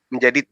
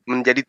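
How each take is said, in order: Both takes have the same delivery.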